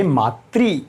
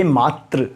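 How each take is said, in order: First: मातृ ending in ri, slowly; मातृ said slowly as maatri. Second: मात्र ending in a short a, slowly; मात्र said slowly as maatra. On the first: (मातृ का धीमा उच्चारण) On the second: (मात्र का धीमा उच्चारण) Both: Shown as a demonstration. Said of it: "उच्चारण करो मेरे साथ".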